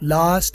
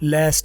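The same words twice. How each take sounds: First: It is said with a British accent. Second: It is said with an American accent. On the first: "British है" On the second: "American है"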